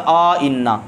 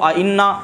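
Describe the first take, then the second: First: A long 'aa' vowel is inserted between both glottal stops. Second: Both glottal stops are pronounced with no vowel between them. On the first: "तहकीक की सूरत में अलिफ को दाखिल करें" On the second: "तहकीक वाला तरीका हो आइन्ना, इसको तहकीक के साथ हो गया"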